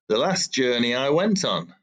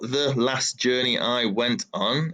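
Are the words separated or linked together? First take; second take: linked; separated. First: The words are linked together like one word. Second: The words are said separately, not linked.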